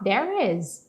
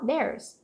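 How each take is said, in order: First: It is said as two full separate words. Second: It is said as one contracted word. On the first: "Ou você pode falar there is" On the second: "mas é mais fácil falar there's"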